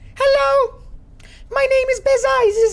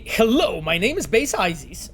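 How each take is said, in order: First: It is read in the intended character voice. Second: It is read in a different, mismatched voice. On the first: The speaker calls it right. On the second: The speaker calls it wrong.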